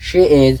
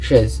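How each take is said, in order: First: "she is" as two separate words; distinct beats on "she" and "is"; full form. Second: "she's" as one short syllable; quick single-beat "she's"; contracted she's. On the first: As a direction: say "she is" uncontracted. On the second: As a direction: merge she and is into "she's". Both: Shown as a demonstration.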